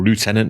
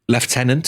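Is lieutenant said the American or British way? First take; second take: American; British. First: It begins with a 'loo' sound: loo-tenant. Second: It begins with a 'lef' sound: lef-tenant. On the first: "if you're in America" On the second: "as we say in this country"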